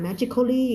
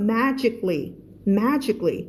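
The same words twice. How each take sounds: First: "magically" spelled out in four syllables, ma-ji-ko-lee; wrong reading of magically. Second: "magically" in three syllables, MA-jik-lee; correct reading of magically. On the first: Teacher warning students off it, "magically" as ma-ji-ko-lee. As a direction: say "magically" with an extra "ko" before "lee". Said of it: "ไม่อ่าน magically". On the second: Teacher modelling the word for students, "magically" as MA-jik-lee. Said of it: "คำนี้จะอ่านว่า". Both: Shown as a demonstration.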